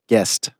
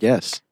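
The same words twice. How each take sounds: First: The final T sound is clearly pronounced. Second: The final T sound is dropped. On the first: The speaker calls it right. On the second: The speaker calls it wrong.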